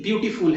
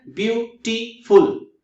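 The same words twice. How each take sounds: First: Said in the usual way. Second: beautiful slowly in three beats, ब्यू-टी-फुल; syllable by syllable. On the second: Shown as a demonstration. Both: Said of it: "three syllables है वहां पे".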